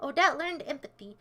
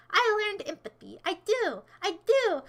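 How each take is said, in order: First: Said in the usual way. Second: Higher, insistent comeback; indignant retort. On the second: Real, not acted. Streamer answers chat's empathy remark, indignant. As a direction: push back on the claim, pitch lifted. Retorts to the comment just read.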